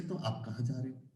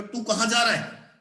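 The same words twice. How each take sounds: First: Much softer, lower courteous question; polite. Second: Blunt, informal question; rude. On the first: Teacher contrasts polite with rude ways of asking, polite. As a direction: ask politely, soft and low. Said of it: "politely कह रहे हैं". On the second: Teacher contrasts rude and polite ways of asking, rude. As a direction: ask it bluntly, without courtesy. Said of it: "rude भाषा में कह रहे हैं". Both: Shown as a demonstration.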